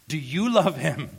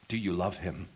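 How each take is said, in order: First: Loud, high preacher's challenge; fervent pulpit shout; impassioned question. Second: Said in the usual way. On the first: Real, not acted. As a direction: cry the question out urgently to the congregation. Same question repeated in full cry.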